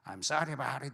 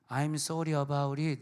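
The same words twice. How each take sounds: First: It is said with an American-style accent. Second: It is said with a Korean-style accent.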